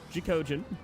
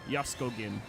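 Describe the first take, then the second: First: The name begins with a 'jack' sound. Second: The name begins with a 'yusk' sound. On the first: "but in in English, it's Jacogin" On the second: "in Polish, it's like Jaskogin"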